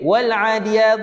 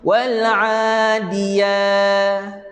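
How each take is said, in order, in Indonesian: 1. Vokal pertama dalam adiyat itu pendek. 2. Vokal pertama dalam adiyat dibaca panjang. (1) "dia baca pendek-pendek" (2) "Sepatutnya ... Panjang dua harakat"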